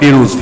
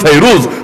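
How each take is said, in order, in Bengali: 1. প্রথম স্বরধ্বনিটি একটি ছোট 'ee' ধ্বনি। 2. প্রথম স্বরধ্বনিটি একটি 'eye' ধ্বনি। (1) "বাংলায় বলে" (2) "মূল উচ্চারণ"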